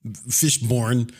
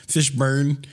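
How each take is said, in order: First: "Fishburne" ending like the word born; second syllable of "Fishburne" rhymes with corn; -born pronunciation. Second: "Fishburne" ending like the word burn; second syllable of "Fishburne" rhymes with turn; -burn pronunciation. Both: Shown as a demonstration. Tries two pronunciations of the surname.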